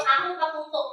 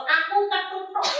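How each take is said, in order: First: AKU KETUTUK run together quickly; hurried, slurred "aku ketutuk"; unclear diction. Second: AKU KETUTUK said clearly, word by word; measured, distinct "aku ketutuk"; clear enunciation. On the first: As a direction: rush "aku ketutuk" so the syllables blur. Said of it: "Nah, iki salah". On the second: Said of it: "Kudu, kudu cetha". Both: Shown as a demonstration.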